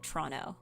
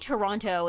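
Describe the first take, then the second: First: The second T is dropped. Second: The second T is clearly pronounced. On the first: This is how local residents say it. "anybody who lives in Toronto is gonna call it Toronto" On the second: This is the careful, newscaster way of saying it. "you might say Toronto if you're like a newscaster"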